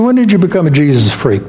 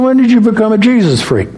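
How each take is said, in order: First: Said in the usual way. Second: Higher, pressing repeat of the question; emphatic repeat. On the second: Retold or imitated. To coworker Linda who said what, repeating it higher and emphatic. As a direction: say it again higher and with more push.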